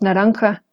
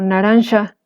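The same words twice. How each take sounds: First: The consonant before the final vowel is a harsh h. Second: The consonant before the final vowel sounds like sh. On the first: This is the modern Spanish pronunciation. "que ahora decimos naranja" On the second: This is the old Spanish pronunciation. "En el español antiguo teníamos este sonido de sha"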